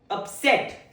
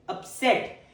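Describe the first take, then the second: The two takes are said the same way.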